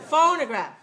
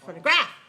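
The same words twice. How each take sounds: First: The stress is on the first syllable. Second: The stress is on the third syllable. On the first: "First one?" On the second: "Third one?"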